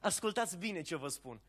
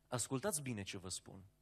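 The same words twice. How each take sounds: First: It is said warmly, smiling and gently. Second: It is said coldly, seriously and harshly. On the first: The message is given with affection and joy. The speaker calls it wrong. "zâmbitor, plin de bucurie și de lumină" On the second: The message is a severe warning. The speaker calls it right. "foarte serioasă, rece și protocolară, cu asprime"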